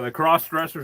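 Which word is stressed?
cross. The stress falls on the word cross. People who wear clothes of the other sex.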